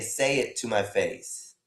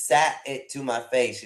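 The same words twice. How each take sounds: First: "Say" said as a clean "say", a bit slower; "Say it to my face" with an open "Say", no t; correct title. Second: "Sat" said with a t, like "sat"; "Sat it to my face" with a hard t in "Sat"; wrong title quoted. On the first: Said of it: "It should say". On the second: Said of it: "It says". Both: Shown as a demonstration.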